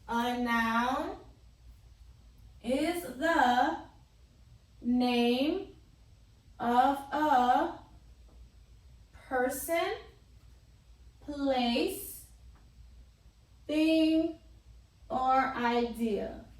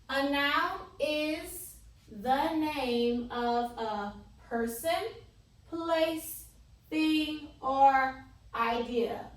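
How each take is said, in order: First: It is read with long pauses between items. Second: It is read straight through without long pauses.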